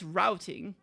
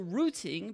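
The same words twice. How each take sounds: First: It is said with an American pronunciation. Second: It is said with a British pronunciation. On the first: "but in American it's routing" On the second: "in British it's also routing"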